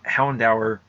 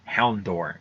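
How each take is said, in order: First: The last syllable sounds like 'dower'. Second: The last syllable sounds like 'door'. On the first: The speaker calls it right. "I used to call ha- Houndour" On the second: The speaker calls it wrong. "I used to call ha- Houndour Houndor"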